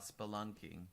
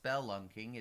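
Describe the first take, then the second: First: The first vowel is reduced to a schwa. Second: The first vowel is a full, clear vowel. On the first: This is how the speaker learned it. "I've always learned it as more of a schwa" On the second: This is how another person says it. "I think Allie thinks it's spelunking"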